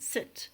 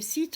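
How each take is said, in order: First: The vowel is a short i sound. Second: The vowel is a long ee sound. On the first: The speaker calls it right. "it's the I sound" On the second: The speaker calls it wrong. "our ear doesn't hear the I properly and we say seat"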